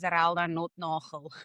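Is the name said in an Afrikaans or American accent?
Afrikaans. The name is said with an Afrikaans accent. "and then I would say"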